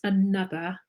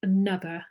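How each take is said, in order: First: It starts with a weak schwa vowel. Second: It starts with a weak schwa vowel.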